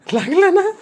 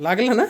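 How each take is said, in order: First: Higher, louder "लागलं ना?" with "ना" pushed up; louder repeat. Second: Said in the usual way. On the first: Real, not acted. Owner asking the pet again, louder, if it got hurt. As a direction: ask again, sharper and louder. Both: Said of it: "repeated louder".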